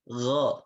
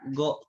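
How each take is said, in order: First: The vowel is an open 'a' sound. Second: The vowel is a rounded 'o' sound. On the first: The speaker calls it right. "pengucapannya dengan infitah asy-syafatain ketika berharakat fathah" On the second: The speaker calls it wrong. "Tidak boleh go kho gitu"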